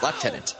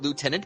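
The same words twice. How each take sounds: First: It uses the Canadian pronunciation. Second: It uses the American pronunciation. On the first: The speaker calls it right. "It is lieutenant. ... it is a Canadian pronunciation" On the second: The speaker calls it wrong. "you Americans call it lieutenant, but you're wrong"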